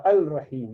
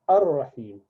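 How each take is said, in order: First: Al-Rahim with the lam sounded; wrong form. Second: Ar-Rahim with the lam dropped and the r doubled; correct form. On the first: Teacher showing the mistaken reading. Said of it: "You do not say". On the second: Teacher giving the right reading. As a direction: go straight onto the r in Ar-Rahim. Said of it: "you say". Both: Shown as a demonstration.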